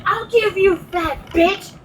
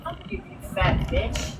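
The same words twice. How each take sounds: First: High-pitched indignant comeback; heated, pitched-up retelling; retold angry threat. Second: Much softer, muttered comeback; quiet repeat. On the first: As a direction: fire the insult back as a threat. Retelling her angry comeback to insult. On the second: Retold or imitated. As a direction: echo the threat under your breath. Repeats her comeback to herself afterwards.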